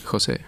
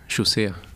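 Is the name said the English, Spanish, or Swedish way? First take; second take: Spanish; Swedish. First: The name is said with a Spanish pronunciation. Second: The name is said with a Swedish pronunciation. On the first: "my parents wouldn't pronounce it" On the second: "In Sweden, they pronounce it"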